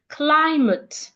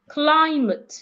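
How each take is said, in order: Both takes have the same delivery.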